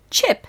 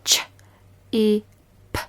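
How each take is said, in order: First: Chip said whole, jumping high; blended word. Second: Ch-e-p breathed out in a whisper, sound by sound. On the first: Teacher blending the word after a whisper. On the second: Teacher whispering sounds for pupils to copy. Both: Shown as a demonstration. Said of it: "Chip as in your chips".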